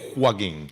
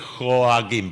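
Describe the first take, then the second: First: The name is said without the 'oa' diphthong. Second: The name is said with an 'oa' diphthong. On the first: The speaker calls it wrong. "muchos dicen Joaquín" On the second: The speaker calls it right. "Cuesta decir Joaquín ... es con O A, es un diptongo raro"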